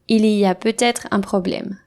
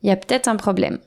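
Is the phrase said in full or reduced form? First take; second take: full; reduced. First: Every sound is fully pronounced. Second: Il y a and peut-être are shortened. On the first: "Voici une phrase exemple" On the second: "Naturellement, je dirais"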